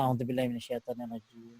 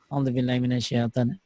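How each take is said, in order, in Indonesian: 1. Diucapkan dengan suara mengantuk, tenaga rendah. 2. Diucapkan dengan suara riang, penuh semangat. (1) "jadi ngantuk kan tuh" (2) "Ada semangatin diri"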